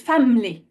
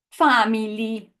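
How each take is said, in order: First: "family" said as FAM-lee, middle vowel glossed over; shrunken middle vowel. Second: "family" in mock Italian, FAH-mee-lee, all vowels full; mock Italian accent. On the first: Teacher shows the English way, "family" glossed over as FAM-lee. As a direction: swallow the I in "family". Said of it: "We almost kind of gloss over it". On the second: Teacher shows what we don't say, "family" in mock Italian accent. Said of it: "We don't say". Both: Shown as a demonstration.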